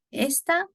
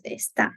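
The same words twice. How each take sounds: First: First "esta" stressed up front, ES-ta; stress on first syllable. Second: Second "esta" stressed at the end, es-TÁ; stress on last syllable. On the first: Teacher asking students to hear the difference, first-syllable stress on "esta". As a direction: punch the ES in "esta", let ta fall away. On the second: Teacher asking students to hear the difference, final-syllable stress on "esta". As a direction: push the weight onto the final TA of "esta". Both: Shown as a demonstration. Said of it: "the emphasis in that".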